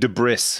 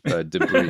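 First: The last syllable sounds like 'bris'. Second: The last syllable does not sound like 'bris'.

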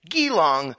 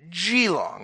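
First: The word begins with a hard G sound. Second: The word begins with a soft J-like sound. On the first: The speaker calls it wrong. "isn't pronounced with a hard G like Geelong" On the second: The speaker calls it right. "but a soft G like Geelong"

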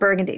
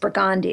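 First: It is pronounced the standard, non-local way. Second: It is pronounced the local New Orleans way. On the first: The speaker calls it wrong. "it's not Burgundy" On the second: The speaker calls it right. "It's Burgundy"

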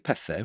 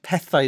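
First: The word ends in an 'eh' sound. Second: The word ends in an 'eye' sound. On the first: This is the West Wales pronunciation. "West Walians would say pethe, which is how I would say it" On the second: This is the pronunciation used by young Cardiff speakers. "But pethai is how you actually say it"

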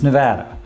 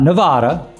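First: The middle vowel sounds like the one in 'cat'. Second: The middle vowel sounds like the one in 'father'. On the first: The speaker calls it right. "First lesson, it's Nevada" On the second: The speaker calls it wrong. "Not Nevada"

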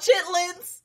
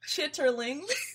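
First: The word is said short, with two syllables. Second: The word is said in full, with three syllables. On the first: This is the everyday name for the dish. "it's called chitlins" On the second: This is the formal full name for the dish. "It's pronounced chitterlings"

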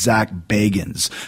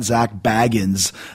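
First: The surname is said not to sound like Baggins. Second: The surname is said to sound like Baggins. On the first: The speaker calls it right. "It's Zach Bagans" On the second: The speaker calls it wrong. "It's not Zach Bagans like Bilbo Baggins"

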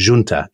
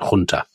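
First: The word begins with a J sound. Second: The word begins with an H sound.

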